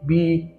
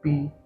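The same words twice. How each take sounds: First: It is said loudly with strong force. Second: It is said softly with little force. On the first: "with higher force or higher intensity" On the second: "with low intensity or low force"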